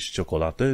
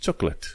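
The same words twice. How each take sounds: First: "ciocolată" as "cho-co-la-te", all syllables; wrong, spelled-out pronunciation. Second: "chocolate" in two syllables, "chok-let"; correct pronunciation. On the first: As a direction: sound every syllable of "ciocolată". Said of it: "Nu zici ciocolată". ("ciocolată" citit literă cu literă, greșit) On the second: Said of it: "zici chocolate". ("chocolate" scurtat, "cioc-let") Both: Shown as a demonstration.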